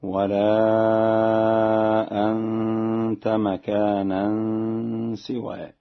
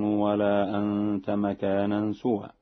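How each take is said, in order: First: Slow recitation, "سوى" with i after the s; Warsh reading. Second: Said in the usual way. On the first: Shown as a demonstration. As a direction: chant it slowly, saying "سوى" as si-wa. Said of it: "بكسر السين هكذا". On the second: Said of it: "بكسر السين".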